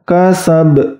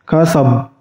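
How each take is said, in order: First: The final consonant has a light, small echo. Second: The final consonant has no echo at all. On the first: "Apabila ringan" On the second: "bacaan yang salah itu apabila tidak dipantulkan"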